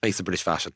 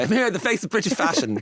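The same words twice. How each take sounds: First: Said in the usual way. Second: Higher-pitched, self-mocking grand announcement; ironic. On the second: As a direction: announce yourself with playful irony, pitched up. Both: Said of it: "just in an ironic way".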